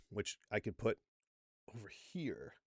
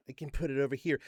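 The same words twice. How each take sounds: First: Barely-there whisper; whispered pointer, very soft; whispered aside. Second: Said in the usual way. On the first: Shown as a demonstration. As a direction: drop to a hushed, voiceless whisper. Stage aside pointing to video.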